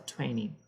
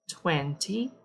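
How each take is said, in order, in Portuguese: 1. O t depois do n é omitido. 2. O t depois do n é pronunciado.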